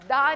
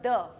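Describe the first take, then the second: First: The vowel is an open, long 'ah'. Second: The vowel is a short, barely open 'uh'. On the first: The speaker calls it wrong. "दा नहीं है" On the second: The speaker calls it right. "आप देखिए मैं ज्यादा मुंह नहीं खोल रही"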